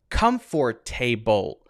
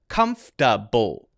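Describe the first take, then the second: First: Every vowel is pronounced fully and clearly. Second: The middle syllable is squeezed into 'fta'. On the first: "each sound is enunciated too clearly" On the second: "like come and then fta"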